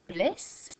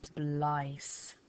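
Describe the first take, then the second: First: The vowel is a short i sound. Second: The vowel is a long i sound. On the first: The speaker calls it right. "it's bliss" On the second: The speaker calls it wrong. "Or we could even try b, l, I, s"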